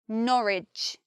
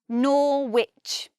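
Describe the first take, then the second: First: No W sound is heard in the middle. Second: A W sound is heard in the middle. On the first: The speaker calls it right. "if we just say Norwich and we don't add that W" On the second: The speaker calls it wrong. "but we don't say Norwich"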